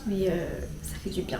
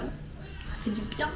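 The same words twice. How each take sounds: First: Said in the usual way. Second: Slow, soft whispered relief; whispering. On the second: Real, not acted. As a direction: breathe it out in a whisper. Repeats phrase, then whispers it.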